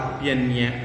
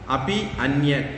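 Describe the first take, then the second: First: The two words merge into one word. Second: The two words are said separately.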